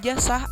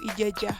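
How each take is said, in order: First: The middle consonant is s. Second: The middle consonant is j. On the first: "diucapkan j atau s" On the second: "atau ijajah"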